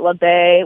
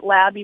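First: The name is said with a French pronunciation. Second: The name is said with an English pronunciation. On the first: "That's just the French way of saying it" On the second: "that's how I pronounce it"

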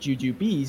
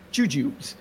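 First: The word ends with a 'bees' sound. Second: The word ends with a 'joobs' sound. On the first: The speaker calls it right. "it's called jujubes because they have a picture of a bee" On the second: The speaker calls it wrong. "not jujubes"

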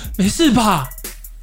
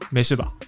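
First: The question sounds fussy, anxious and fretful. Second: The question sounds steady, calm and relaxed. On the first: The speaker is flustered and makes others roll their eyes. The speaker calls it wrong. "不用他那边大闹的说" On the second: The speaker seems stable and invites the other to open up. The speaker calls it right. "你反而如果稳定的说"

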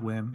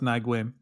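First: The name is said as one short syllable. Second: The name is said with several separate syllables. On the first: The speaker calls it right. "they pronounce it Win" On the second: The speaker calls it wrong. "I always thought it was Nguyen when I was a kid"

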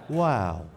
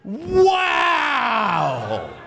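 First: It is said with mild excitement. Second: It is said with strong excitement.

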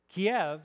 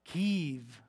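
First: The name is said in the Russian form. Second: The name is said in the Ukrainian form. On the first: It follows the Russian form of the name. "Kiev is the Russian way to say the city's name" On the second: It shows respect for the Ukrainian people. "is the Ukrainian way to say it"

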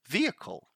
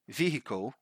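First: The middle vowel is a weak schwa sound. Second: The middle vowel is full and clearly sounded. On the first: The speaker calls it right. "So the way we pronounce it, and here is the schwa sound again, we simply say vehicle" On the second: The speaker calls it wrong. "This one I hear a lot people saying vehicle"

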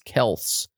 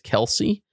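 First: The name has one syllable, without a final 'ee'. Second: The name has two syllables, ending in 'ee'. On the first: This is the original family pronunciation of the name. "according to the history of his name and his father's side of the family" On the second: This is the pronunciation the family gives reporters. "in their pronunciation guide, it is K-E-L-C-E-E"

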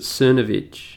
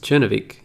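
First: The name is said the common English way. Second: The name is said the Italian way. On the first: This is how most people say the name. "apparently everyone pronounces it Cernovich" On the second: This matches the name's Italian origin. "but it's an Italian name. It's Cernovich. That's how you'd say it"

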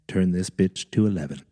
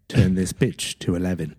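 First: It is said in the speaker's own accent. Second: It is said in a British accent.

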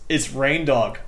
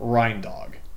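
First: The first syllable sounds like 'rain'. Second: The first syllable sounds like 'rin'. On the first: The speaker calls it right. "like reindeer, but dog" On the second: The speaker calls it wrong. "We're pronouncing this wrong"

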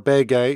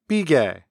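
First: It is said in standard Korean pronunciation. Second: It is said in the Jeolla dialect pronunciation. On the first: "the word pillow or bege" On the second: "is pronounced bige"

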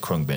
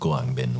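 First: The name is said in an English-style way. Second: The name is said closer to Thai. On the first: The speaker calls it wrong. "we still say Krungbin" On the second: The speaker calls it right. "which is kind of closer to how you'd say it"

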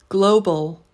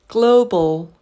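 The two takes are said the same way.

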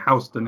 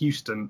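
First: It is pronounced as the New York street's name. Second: It is pronounced as the Texas city's name. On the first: It names the street in New York. "in Houston in New York" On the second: It names the city in Texas. "It's Houston in Texas"

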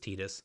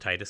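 First: The first syllable does not sound like 'tide'. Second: The first syllable sounds like 'tide'. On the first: This is the officially correct pronunciation. "technically it should be pronounced as" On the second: This is the habitual pronunciation since childhood. "it feels like tides"

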